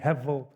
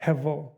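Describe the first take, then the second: First: The middle consonant is almost a V sound. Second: The same.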